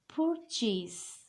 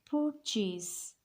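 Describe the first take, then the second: Both takes have the same delivery.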